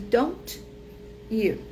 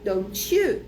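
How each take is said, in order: First: The t and y are said separately. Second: The t and y merge into a ch sound. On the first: "ao invés de don't you" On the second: "vira don't you ... vira um tch novo"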